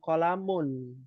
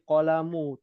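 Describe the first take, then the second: First: The word ends with an n sound. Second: The word ends on a vowel, no n. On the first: The speaker calls it wrong. "Ini bukan kolamun" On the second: The speaker calls it right. "Ini kolamu, tidak bertanwin"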